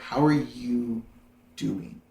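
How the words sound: It sounds sincere, waiting for a real answer.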